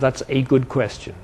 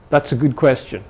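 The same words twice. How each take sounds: First: The article is a full 'ay' sound. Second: The article is a short reduced 'uh'. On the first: The speaker is trying to sound formal. "instead of" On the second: The speaker forgot to sound formal. "when he just says"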